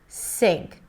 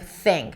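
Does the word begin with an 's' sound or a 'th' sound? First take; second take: s; th. First: The word begins with a hissing 's' sound. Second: The word begins with a soft 'th' sound. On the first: The speaker calls it wrong. "you're pronouncing an S sound instead of a T H sound" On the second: The speaker calls it right. "the tip of the tongue comes out"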